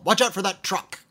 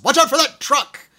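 First: Mock yell at a driver; playful warning yell. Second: Sudden loud, high yell; yelled warning. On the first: Playfully freaking out a driver, mild mock yell. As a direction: yell it lightly, as a playful false alarm. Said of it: "I will often yell". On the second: Retold or imitated. Movie character startling his driver, full yell. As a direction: holler it like an urgent alarm to the driver. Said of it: "And he just yells".

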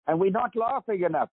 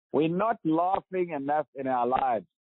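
First: "laughing" with an American short a, as in "cat"; American accent. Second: "laughing" with a South African long ah, LAHF-ing; broad a in "laughing", South African style; South African accent. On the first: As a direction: say "laughing" the American way, LAFF-ing. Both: Shown as a demonstration. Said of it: "I'm talking South African accent and American now".

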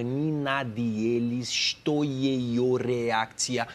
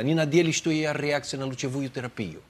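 First: Russian sounded out very slowly; drawn-out phonetic Russian, with breaks; slowed-down dictation. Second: Rapid, fluent run of Russian; teacher's Russian at natural speed; imitating Russian coach. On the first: Retold or imitated. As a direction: spell it out syllable by syllable, slowly. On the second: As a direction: reel off the Russian line without breaks. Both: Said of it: "Fala devagar pra mim".

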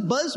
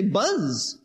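First: Said in the usual way. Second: "Buzz" drawn out like the noise; sound-imitating buzz. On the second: Shown as a demonstration. Preacher showing what the word means, "Buzz" as a buzzing noise. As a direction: hold the humming z of "Buzz". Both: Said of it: "sound like their meaning".

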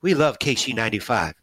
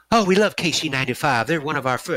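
First: Light repeat of the singer's line, close to own voice; a faint echo of the star's friendly reply; imitating the singer. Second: A hint of the rock star's higher voice, friendly and eager; imitating the singer. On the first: The fan repeats his idol's words, barely voiced. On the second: The fan imitates his idol greeting the radio station, mildly higher. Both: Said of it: "that's kinda how he talks".

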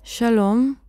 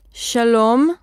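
First: Said in the usual way. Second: "שלום" קצת יותר חזק ומודגש; להרים מעט את הקול בברכה; קול מוגבר. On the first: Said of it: "ומגביר את קולו". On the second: A narrator's reading. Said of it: "פותח את פיו ומגביר את קולו". (ברכה בקול מוגבר במקצת)

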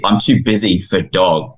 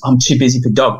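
First: Said in the usual way. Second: Put-on "I'm too busy for dog" in a higher child voice, echoing in disbelief; a boy echoing his grown self's words; incredulous boy. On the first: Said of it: "And, and kid". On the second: Boy repeats his grown self's excuse in a higher child voice. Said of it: "And then he goes".

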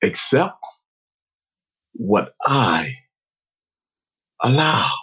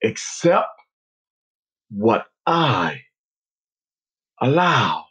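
First: Low, slow, spaced-out calm. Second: Slow, firm, measured words; strong voice. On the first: Unseen voice speaks to player leaving field, calmly. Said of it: "It spoke so calmly and said". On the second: Unseen voice repeats its message to player, strongly. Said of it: "heard the words again, strongly". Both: Retold or imitated.

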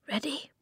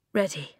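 First: High, soft, rising; hushed question. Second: Said in the usual way. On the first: A narrator's reading. Eska looks across to Flint before riding, hushed question. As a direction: ask it softly with an upward lift.

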